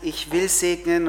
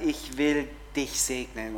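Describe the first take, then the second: First: Said in the usual way. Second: Slower, softer promise; tender. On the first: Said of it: "Gott sagt". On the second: Shown as a demonstration. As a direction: say it gently and slowly. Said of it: "und Gott sagt".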